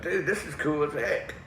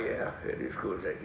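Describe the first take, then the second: First: Slow, higher, impressed buddy; Dana. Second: Low, soft reply; understated agreement. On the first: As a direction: draw it out like an excited friend. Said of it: "He was like". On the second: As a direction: agree quietly, pitched down. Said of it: "I'm like". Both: Retold or imitated.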